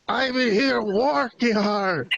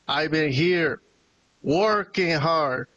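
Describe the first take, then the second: First: The words sound thick and mushy, as if muffled. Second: The words are spoken in a normal, clear voice.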